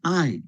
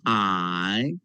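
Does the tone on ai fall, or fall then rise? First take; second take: fall; fall-rise. First: The pitch falls downward. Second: The pitch falls and then rises. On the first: It means love. "Tangga nada keempat Bu. Jadi turun Bu" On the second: It means short. "tangan ketiga tadi. Turun naik"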